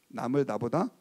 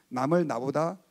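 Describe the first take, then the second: The two takes are said the same way.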